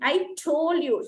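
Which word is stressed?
told. The stress falls on the word told. I already said it to you. "the stress is on the word told"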